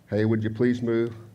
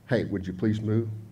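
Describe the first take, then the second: First: It is said in a firmer, warning tone. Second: It is said in a soft, gentle tone.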